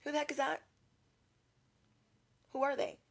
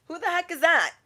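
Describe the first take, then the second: First: High, soft nosy aside; mock-baffled murmur behind someone's back; hushed onlooker. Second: High-pitched mock astonishment; baffled onlooker. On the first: Post office customers asking about a stranger, hushed. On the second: Shoppers in line asking about a stranger, baffled. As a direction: ask it high and incredulous.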